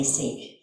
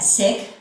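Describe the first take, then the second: First: "Sikh" with a long ee, as in seek; long-ee pronunciation. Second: "Sikh" with a short i, as in sick; short-i pronunciation. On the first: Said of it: "flows better if I say Sikh". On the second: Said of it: "told that you pronounce that". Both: Shown as a demonstration.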